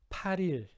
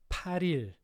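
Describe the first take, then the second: The two takes are said the same way.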